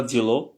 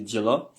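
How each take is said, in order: First: Dielo ending in a clear O; wrong pronunciation. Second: Diela ending in A, not O; correct pronunciation. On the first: Teacher warning students off the written O, wrong pronunciation. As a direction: say dielo with the written O sounded at the end. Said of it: "On dit pas dielo". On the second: Teacher showing students the spoken A, correct pronunciation. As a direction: say diela with the final O reduced to an A. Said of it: "on dit diela". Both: Shown as a demonstration.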